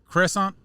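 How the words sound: It is said with an American pronunciation. "usually here in America people usually say"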